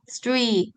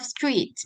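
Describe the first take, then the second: First: The final t sound is dropped. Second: The final t sound is clearly pronounced. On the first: This is how it sounds in Brunei English. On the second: This is the standard pronunciation.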